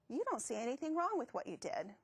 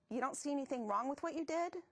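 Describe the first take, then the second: First: The voice falls at the end like a statement. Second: The voice rises at the end like a question.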